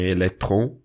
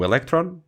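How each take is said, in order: First: The word is pronounced with a French sound. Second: The word is pronounced without a French sound. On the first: The speaker calls it wrong. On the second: The speaker calls it right.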